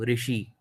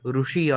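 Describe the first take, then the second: First: The first vowel is pronounced like 'ri'. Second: The first vowel is pronounced like 'ru'. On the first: This is the northern regional pronunciation. "in northern parts of India, people pronounce it as Rikara, like I do" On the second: This is the southern regional pronunciation. "in southern parts of India, they call it Rushi"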